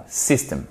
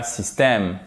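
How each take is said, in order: First: "system" said the English way, stress on the first syllable; "system" in English, softly corrective. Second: "système" with French vowels and final è stress; "système" in plain French pronunciation. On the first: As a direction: say "system" as in English, SIS-tem. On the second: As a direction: say "système" the French way, the wrong one here. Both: Shown as a demonstration. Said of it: "non, system".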